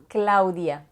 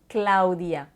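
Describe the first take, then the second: The two takes are said the same way.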